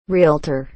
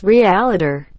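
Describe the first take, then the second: First: REALTOR in two beats, REEL-ter, lower; correct realtor. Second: REALTOR in extra syllables, ree-AL-uh-der; wrong realtor. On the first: Shown as a demonstration. Correcting a common error, two-syllable REALTOR. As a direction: say REALTOR with L straight onto T. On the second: Retold or imitated. Mocking a common error, ree-AL-uh-der for REALTOR. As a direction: put a vowel between L and T in REALTOR. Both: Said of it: "It's not pronounced realtor".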